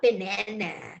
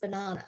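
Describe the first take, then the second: First: Banana is said with an American accent. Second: Banana is said with a British accent.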